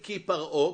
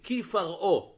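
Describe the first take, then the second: First: The second word begins with a p sound. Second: The second word begins with an f sound. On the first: The speaker calls it wrong. "אני לא אגיד כי פרעה" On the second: The speaker calls it right. "אני אגיד כי פרעה. דגש יורד"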